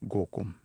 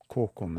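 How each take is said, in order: First: The word begins with a voiced G sound. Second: The word begins with a voiceless K sound. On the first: This is how some communities say it. "They sound more G-ish" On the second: This is how most places say it. "those both sort of sound like K-ish"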